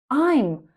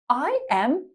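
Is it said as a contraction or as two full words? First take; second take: contraction; full words. First: It is squeezed into one short syllable. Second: It is said as two separate full words.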